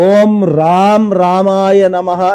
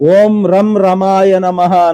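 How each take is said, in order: First: The vowels in ram ramaya are long. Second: The vowels in ram ramaya are short. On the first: The speaker calls it right. "ఇది ఉన్నటువంటి మంత్రము" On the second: The speaker calls it wrong. "హ్రస్వంగా పలకడం"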